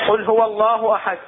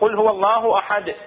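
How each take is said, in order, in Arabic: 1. الـ d في الآخر فيه نفس مهموس، مثل الـ t. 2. الـ d في الآخر فيه انفجار قوي يرتد. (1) "ما طلعت القلقلة، صار عندي هنا كأنما تاء صار همس" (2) "هو قلقلة"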